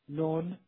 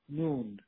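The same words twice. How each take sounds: First: The vowel is between 'aa' and 'oo'. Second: The vowel is a closed 'oo'. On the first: This is a partly colloquial form. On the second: This is the fully colloquial form.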